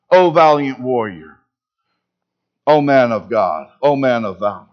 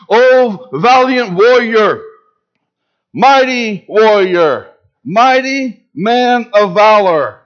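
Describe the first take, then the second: First: Lower, gentle, lingering on each O; tender affirmation. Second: Slow, loud and majestic, each title rung out; booming divine proclamation. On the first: God sees what Gideon can be. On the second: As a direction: hail him like God calling a hero. God hails hiding Gideon. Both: Acted.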